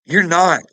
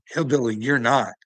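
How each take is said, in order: First: Loud repeat. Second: Said in the usual way. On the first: Real, not acted. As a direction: shout "You're not" higher and louder. Repeats rebuttal, much louder.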